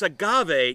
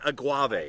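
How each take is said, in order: First: The g is followed directly by a vowel. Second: The g is followed by a w sound. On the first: The speaker calls it right. "So it's agave" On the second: The speaker calls it wrong. "not aguave"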